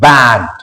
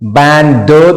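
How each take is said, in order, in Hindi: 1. अंतिम d को धीरे और कमज़ोर तरीके से बोला जाता है। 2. अंतिम d को मज़बूती से और अलग से बोला जाता है। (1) "इसे धीरे बोल रहे हैं" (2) "बैंड ड तो नहीं बोल रहे"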